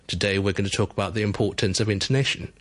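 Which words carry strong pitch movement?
intonation. Only intonation gets a clear pitch jump. "The usual way to do it would be"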